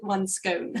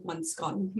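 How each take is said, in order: First: Scone said American-style, rhyming with bone; American pronunciation. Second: Scone rhyming with gone, spoiling the pun; short-vowel pronunciation. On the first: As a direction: say "scone" with a long O, as in "stone". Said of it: "I think it's the American pronunciation". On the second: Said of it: "So it doesn't really work". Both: Shown as a demonstration.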